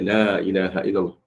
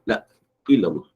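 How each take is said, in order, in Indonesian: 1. Frasa ini mengalir tanpa hamzah tambahan. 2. Frasa ini ada hamzah tambahan. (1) "Kena betul" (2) "bunyi macam ada hamzah"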